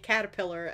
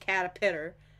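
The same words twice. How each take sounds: First: The word is pronounced in the usual way. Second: The word is pronounced in a garbled, mixed-up way. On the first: The speaker calls it right. "I will never be able to say caterpillar ever again" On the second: The speaker calls it wrong. "It will just be caterpillar"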